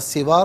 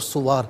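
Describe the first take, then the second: First: The first vowel is an i sound. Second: The first vowel is a u sound. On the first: "सीन के ज़ेर के साथ" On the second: "सीन के पेश के साथ"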